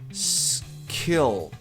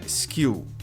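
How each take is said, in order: First: The word starts directly with the s. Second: An 'i' vowel sound comes before the s. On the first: The speaker calls it right. "Então fica skill" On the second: The speaker calls it wrong. "não tem som de I, não é skill"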